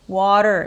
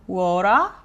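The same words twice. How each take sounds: First: American accent, with the final R pronounced. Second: Australian accent, with no R and a long vowel. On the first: "미국식으로 하면" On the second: "호주식으로는"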